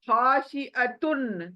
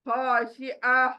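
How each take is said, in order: First: The word ends with the syllable tun. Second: The word ends with a breathy h sound. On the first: The word is read without stopping. "तुन है" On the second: The reader stops at the full stop. "ये तुन चला जाएगा, सिर्फ हा रह जाएगा"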